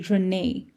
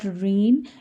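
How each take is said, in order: First: The name ends with an "ay" vowel sound. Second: The name ends without a final vowel sound. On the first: The speaker calls it right. "there's an A at the end" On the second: The speaker calls it wrong. "So it's not Reen"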